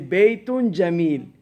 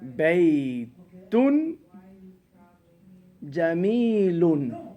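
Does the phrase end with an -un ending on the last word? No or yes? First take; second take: no; yes. First: The last word ends without a final vowel. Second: The last word ends with an audible -un ending. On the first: The speaker stops after this word. "Now if you stop, you say Baytun Jamil" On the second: The phrase is connected to what follows. "So you say Baytun Jamilun"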